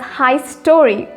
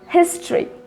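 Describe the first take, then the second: First: The first syllable sounds like 'high'. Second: The first syllable sounds like 'his'. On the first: The speaker calls it wrong. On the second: The speaker calls it right.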